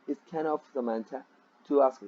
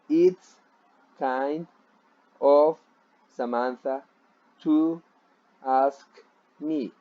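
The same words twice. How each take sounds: First: The words kind and of are linked together. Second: The words kind and of are said separately. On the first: The speaker calls it right. "You say" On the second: The speaker calls it wrong. "So you don't say uh"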